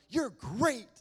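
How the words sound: It is said in a cartoonish, put-on character voice. It is casual praise that something is excellent. The speaker calls it wrong. "not like, you're great, Tony the Tiger"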